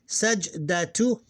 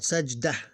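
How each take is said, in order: First: The word ends with a full -tu syllable. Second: The word stops short without the -tu syllable.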